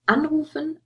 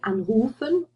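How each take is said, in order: First: The stress is on the first syllable. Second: The stress is on the second syllable. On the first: The prefix is separable. The speaker calls it right. "that stress already tells you, oh, if I use this in a sentence, I have to separate it off" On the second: The prefix would be inseparable. The speaker calls it wrong. "You don't say anrufen or einschlafen. Um, then they would be inseparable"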